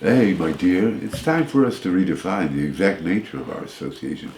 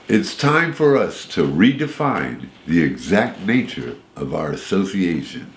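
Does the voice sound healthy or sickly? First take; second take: sickly; healthy. First: It is said in a weak, sickly voice. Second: It is said in a plain, healthy voice.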